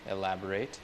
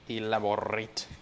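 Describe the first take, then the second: First: The R is said plainly, not rolled. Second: The R is rolled with a trill.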